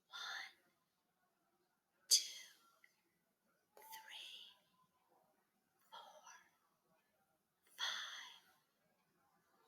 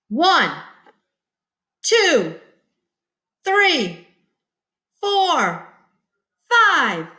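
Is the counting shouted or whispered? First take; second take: whispered; shouted. First: The numbers are whispered softly. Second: The numbers are shouted loudly.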